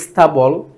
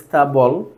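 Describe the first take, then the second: The two takes are said the same way.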